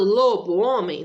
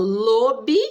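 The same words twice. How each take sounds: First: "lobo homem" said as two separate words, full o in lobo; "lobo" and "homem" kept apart, no blending; wrong split form. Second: "lobisomem" with the o of lobo turned into i; "lobisomem" run together as one word; right blended form. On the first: Teacher showing students the wrong split form: "lobo homem" as two words. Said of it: "Eu não falo lobo homem". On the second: Teacher showing students the right blended form: "lobisomem". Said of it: "O som mudou do o pro i". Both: Shown as a demonstration.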